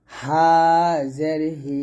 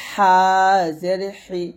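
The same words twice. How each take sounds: First: Light হা and হি, no pressure; thin ha. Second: হা and হি squeezed fine in the throat; narrow, pressed ha. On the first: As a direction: let হা out with an open throat. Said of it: "হা পাতলা করে". (হা পাতলা করে) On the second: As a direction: tighten the throat on হা. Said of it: "চিকুন করে চাপ দিয়ে বলতে হবে". (হা চিকুন চাপ দিয়ে) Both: Shown as a demonstration.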